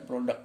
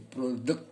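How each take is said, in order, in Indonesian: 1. Kata itu berakhir dengan bunyi k saja. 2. Kata itu berakhir dengan bunyi kt.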